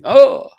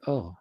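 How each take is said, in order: First: The 'oh' sounds sudden and startled. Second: The 'oh' sounds calm and mild. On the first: An overblown reaction, like being startled. "That's really exaggerated response. It's really like a startle" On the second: A normal reaction to something. "not like"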